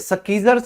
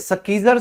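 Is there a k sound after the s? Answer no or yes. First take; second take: yes; yes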